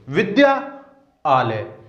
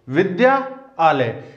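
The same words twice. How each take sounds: First: The two parts are said as separate words. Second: The two parts are said as separate words.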